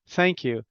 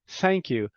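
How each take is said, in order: No difference in how they are said.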